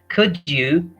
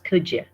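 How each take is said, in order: First: The D and Y sounds stay separate. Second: The D and Y merge into a 'ja' sound. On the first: "So could could you is is pronounced as" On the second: "is pronounced as ja"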